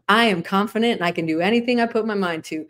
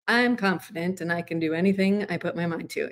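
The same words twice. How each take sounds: First: It sounds open, energetic and confident. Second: It sounds collapsed, flat and defeated.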